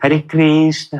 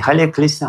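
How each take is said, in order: First: It is said with a Russian accent. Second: It is said with a Chinese accent, r as l. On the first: "Когда русские повторяют «Харе Кришна»" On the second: "Китайцы по-китайски"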